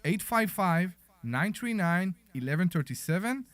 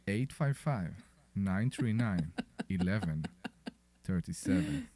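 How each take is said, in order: First: It is said in an ordinary speaking voice. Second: It is said in a put-on sexy voice.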